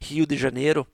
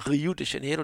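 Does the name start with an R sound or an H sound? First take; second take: H sound; R sound. First: The first sound is a Brazilian H-like R. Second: The first sound is a plain R.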